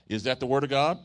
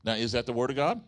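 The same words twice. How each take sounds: First: Louder call-out to the church; stronger call. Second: Said in the usual way. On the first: Shown as a demonstration. Preacher rousing the crowd, loud call-out. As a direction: demand the answer, loud and higher. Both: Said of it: "No, that was weak".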